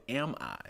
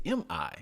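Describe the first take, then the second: First: "Am I?" said as the words am and I; misheard Am I. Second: "Am I?" said as two letters, em-eye, higher pitched; saying letters M I. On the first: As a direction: open "Am I?" with the vowel of "am", as misheard. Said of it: "You thought I said". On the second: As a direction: spell out "Am I?" as em, eye. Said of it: "I said". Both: Shown as a demonstration.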